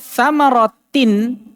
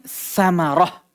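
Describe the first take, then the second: First: The word ends with a t and n sound. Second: The word ends with a soft h sound. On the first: The reader continues on without stopping. "Beliau bawakan contoh kata samaratin" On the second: The reader stops on this word. "Ketika kita wakaf ini sama saja dengan samarah"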